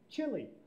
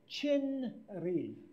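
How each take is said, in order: First: The middle consonant merges into an l sound. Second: The middle consonant is a separate n sound. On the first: The speaker calls it right. "the Koreans kind of smoosh it together" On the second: The speaker calls it wrong. "That would be wrong. Too harsh"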